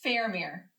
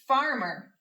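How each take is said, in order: First: The first syllable sounds like 'fair'. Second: The first syllable sounds like 'far'. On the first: The speaker calls it wrong. "that doesn't sound right to me" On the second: The speaker calls it right. "That sounds like a word I know"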